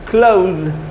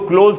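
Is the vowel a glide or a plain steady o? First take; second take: glide; plain o. First: The vowel glides from a short uh to oo. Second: The vowel is a plain, steady o sound. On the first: The speaker calls it right. "आधा अ और छोटा ऊ, क्लोज, ऐसे इसका उच्चारण हुआ" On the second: The speaker calls it wrong. "मैं इसको क्लोज क्यों नहीं बोल रहा? ... ये ओ नहीं होता"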